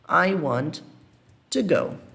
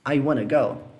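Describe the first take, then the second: First: Want to is said as two full words. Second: Want to is reduced and blended into wanna.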